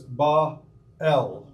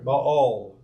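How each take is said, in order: First: The name is said the original Semitic way. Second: The name is said the English way.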